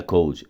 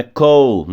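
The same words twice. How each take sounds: First: "cold" with an added final d sound, like "col-di"; "cold" with an extra vowel after the d, Brazilian style; wrong cold. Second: "cold" with a silent final d, said like "col"; "cold" said natively, with no d sound at the end; correct cold. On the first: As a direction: pronounce the d at the end of "cold", the mistake to avoid. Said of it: "não é cold". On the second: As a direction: drop the d at the end of "cold", ending on the l. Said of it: "Então, é cold". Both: Shown as a demonstration.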